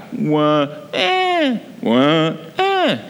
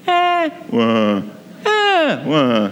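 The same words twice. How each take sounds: First: Imitating a baby's wah-eh, jumping high on eh; mock French baby cry, low then sharply high; baby cry rising low to high. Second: Imitating a baby's eh-wah, dropping low on wah; mock German baby cry, high then sharply low; baby cry falling high to low. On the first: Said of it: "So they would cry". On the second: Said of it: "They cried from a high to a low pitch". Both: Shown as a demonstration.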